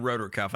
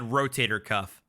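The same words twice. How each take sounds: First: "rotor cuff" clipped to two syllables, RO-tor cuff; quoting her "rotor cuff". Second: "rotator cuff" said in full, ro-TAY-tor cuff; careful "rotator cuff". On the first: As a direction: drop the middle of "rotator" so it says "rotor". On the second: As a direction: spell out "rotator" with every syllable. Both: Shown as a demonstration. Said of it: "I don't think she said rotor cuff".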